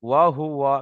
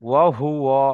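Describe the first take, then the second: No difference in how they are said.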